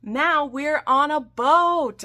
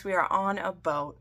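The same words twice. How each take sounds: First: High, loud and slow, stretching out every word; excited announcement. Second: Said in the usual way. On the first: Acted. Recapping the ship scene for viewers, grandly proclaimed. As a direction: belt it like a big proclamation.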